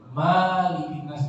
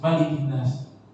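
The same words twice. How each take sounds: First: The first vowel of Malik is drawn out long. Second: The first vowel of Malik is kept short. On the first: The speaker calls it wrong. "enggak boleh dibaca panjang ... enggak boleh" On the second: The speaker calls it right. "Dia harus qasar, pendek"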